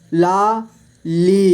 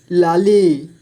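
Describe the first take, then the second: First: Lali split slowly into ला, ली; syllable by syllable. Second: Said in the usual way. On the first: Shown as a demonstration. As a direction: stretch and separate ला and ली in लाली. (लाली को तोड़कर धीरे: ला, ली) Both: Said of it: "इस तरह से आपको".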